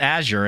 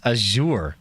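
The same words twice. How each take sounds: First: AZURE said the everyday American way, as the wrong take; Azure said the rejected way. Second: AZURE with the stress moved onto a long second syllable, a-ZURE; corrected Azure. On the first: Streamer reading a viewer's correction, rejected pronunciation of Azure. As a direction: say Azure as the version being corrected. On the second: Streamer reading a viewer's correction, Azure as a-ZURE. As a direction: say Azure as a-ZOOR, the proper way. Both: Shown as a demonstration. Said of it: "says it's not Azure, it's Azure".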